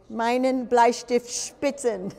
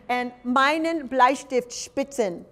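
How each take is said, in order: First: Meinen Bleistift spitzen repeated slowly in German; German phrase. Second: Meinen Bleistift spitzen said slowly in German; slow, laughing German meinen Bleistift spitzen; German phrase. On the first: Teacher repeating Meinen Bleistift spitzen slowly in German. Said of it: "German phrase repeated". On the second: Teacher modelling meinen Bleistift spitzen slowly in German. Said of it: "German phrase". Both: Shown as a demonstration.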